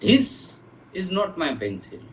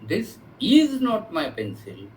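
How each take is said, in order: First: The word 'this' carries the emphasis. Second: The word 'is' carries the emphasis. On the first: A different object is the speaker's pencil. "My pencil इज something else" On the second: It used to be the speaker's pencil but no longer is. "previously it was mine but I have given it to somebody"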